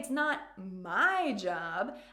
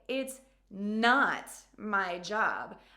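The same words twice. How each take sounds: First: The word my carries the main stress. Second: The word not carries the main stress. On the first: The task belongs to someone else. "I mean that it might be your job" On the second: The speaker dramatically refuses the task. "I am emphasizing, I am putting some drama into my communication"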